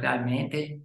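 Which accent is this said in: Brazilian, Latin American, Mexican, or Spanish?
Latin American. It is said with a Latin American accent. "Latin Americans would say something like realmente"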